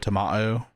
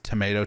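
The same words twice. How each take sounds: First: It is said in a British accent. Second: It is said in an American accent. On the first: "it's like an like a British accent" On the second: "not like an American English accent"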